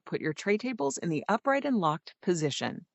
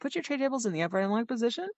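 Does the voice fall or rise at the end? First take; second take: fall; rise. First: The voice falls at the end. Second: The voice rises at the end.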